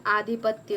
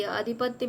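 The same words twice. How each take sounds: First: आधिपत्य opened with a long "aa"; corrected long vowel. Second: अधिपत्य opened with a short "a"; wrong short vowel. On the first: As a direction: stretch the first vowel of आधिपत्य. (आधिपत्य को लंबे आ से बोलें) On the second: (अधिपत्य को छोटे अ से बोलें) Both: Shown as a demonstration. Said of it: "अधिपत्य में आधिपत्य होगा".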